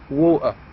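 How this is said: It is said in a Cockney accent. "but in Cockney they say water"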